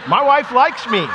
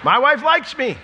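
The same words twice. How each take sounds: First: Slow, with wife leaned on hard; stress on wife. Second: "likes" punched, high and loud; stress on likes. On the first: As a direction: put the weight on "wife". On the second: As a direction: hit the word "likes". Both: Shown as a demonstration.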